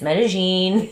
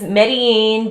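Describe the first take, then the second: First: The double L is a sh sound. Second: The double L is not a sh sound. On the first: "if you say it with a Porteño accent" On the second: "Medellin is Medellin"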